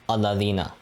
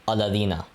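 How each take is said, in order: The two takes are said the same way.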